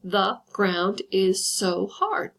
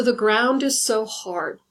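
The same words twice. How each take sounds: First: Very slow, each syllable spaced out; counting out five beats on the line. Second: Slow poem reading; first take, recited; reading a poem line. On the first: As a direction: tap out every syllable slowly. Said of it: "make sure that fits the criteria of five syllables". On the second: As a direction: read the line out slowly like a poem. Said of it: "listen along to this and just see how I've created". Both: Shown as a demonstration.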